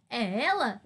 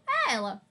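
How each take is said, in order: First: "É ela" asked with questioning intonation; questioning tune on "É ela". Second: "É ela" as a falling, final statement; plain affirming tune on "É ela"; affirmation. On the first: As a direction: ask "É ela" as a genuine question. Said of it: "Se eu estou perguntando". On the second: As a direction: say "É ela" like a full stop. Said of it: "se eu quero afirmar". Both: Shown as a demonstration.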